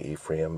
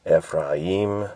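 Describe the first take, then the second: First: The name is pronounced the English way. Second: The name is pronounced a Hebrew-like way. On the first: "We say Ephraim" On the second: "is like a Hebrewish kind of a way"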